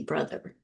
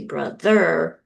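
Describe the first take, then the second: First: Said in the usual way. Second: "brother" with the final ER stressed, louder and drawn out; wrongly stressed "brother", full weight on the second syllable; stress on last syllable. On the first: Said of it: "we say brother". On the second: Shown as a demonstration. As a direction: say "brother" as bro-THER, leaning on the ending. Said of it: "because we don't say".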